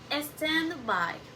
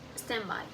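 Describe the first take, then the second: First: The d at the end of stand is heard. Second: The d at the end of stand is dropped.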